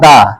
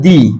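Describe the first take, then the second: First: The vowel in 'the' sounds like 'uh'. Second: The vowel in 'the' sounds like 'ee'. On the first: The next word starts with a consonant sound. "উচ্চারণটা কনসোনেন্টের মতো হবে তখন সেইটাকে বলবো আমরা" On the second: The next word starts with a vowel sound. "যখন ভাওয়েলের মতো sound দিবে। ... এইটাকে বলবো দি।"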